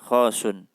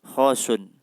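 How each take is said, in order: The two takes are said the same way.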